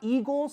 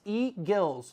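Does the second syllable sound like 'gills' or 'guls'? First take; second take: guls; gills. First: The second syllable sounds like 'guls'. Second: The second syllable sounds like 'gills'. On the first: It names the bird. The speaker calls it wrong. "It's not eagles like the bird" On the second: It names the company. The speaker calls it right. "like the gills of a fish"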